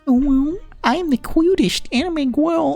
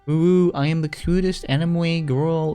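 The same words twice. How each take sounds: First: It is said in a put-on cute voice. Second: It is read in a plain voice.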